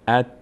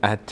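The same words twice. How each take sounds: First: The final t is short and clipped. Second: The final t is stretched and drawn out. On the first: The speaker calls it right. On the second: The speaker calls it wrong.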